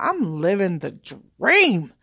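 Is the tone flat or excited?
excited. It is said in an excited, enthusiastic tone.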